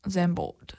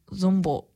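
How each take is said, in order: First: Said in the usual way. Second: Zandvoort slurred as zoom-bor, first try; fumbled Zandvoort. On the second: Shown as a demonstration. Host stumbling over the Dutch track name, Zandvoort mumbled as zoombor. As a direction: Zandvoort mangled to zoombor, then fixed.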